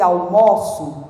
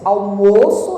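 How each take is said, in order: First: "almoço" slowly, with open stressed O. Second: "Almoço" slowly, with closed stressed O. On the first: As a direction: stretch an open "MAW" in "almoço". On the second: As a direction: stretch a closed "MOH" in "Almoço". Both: Shown as a demonstration. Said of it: "Não é diferente a pronúncia?".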